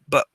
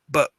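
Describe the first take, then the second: First: The repeated syllable is reduced to a tense schwa. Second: The repeated syllable is reduced to a tense schwa.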